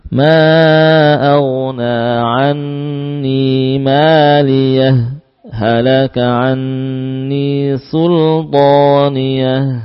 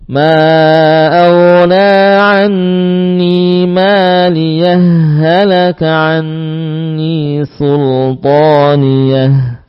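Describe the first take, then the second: First: A brief stop separates maliyah from halaka. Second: Maliyah runs straight into halaka, merged together. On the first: "Atau dengan saktah" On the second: "tanpa saktah? Boleh. Sehingga dibaca dengan idgham"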